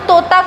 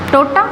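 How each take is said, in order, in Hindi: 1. यह मूल हिंदी भाषी के लहजे में बोला गया है। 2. यह अंग्रेज़ी बोलने वाले के लहजे में बोला गया है। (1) "जैसे तोता है" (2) "तो तोता को वो क्या बोलेगा, टोटा"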